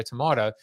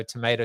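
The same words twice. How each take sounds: First: "tomato" with a broad AH in the middle; British-style tomato. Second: "tomato" with a long AY in the middle; American tomato. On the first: Host contrasting two ways of saying a word, British-style tomato. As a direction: say tomato as to-MAH-to. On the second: Host contrasting two ways of saying a word, American tomato. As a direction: say tomato as to-MAY-to. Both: Shown as a demonstration. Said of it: "I will pronounce it the way".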